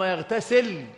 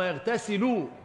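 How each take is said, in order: First: The verb ends with no final vowel. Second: The verb ends with a final u vowel. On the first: It is joined to the earlier prohibited verb. "بالسكون" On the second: It starts a new clause: then he bathes in it. "مرفوعة"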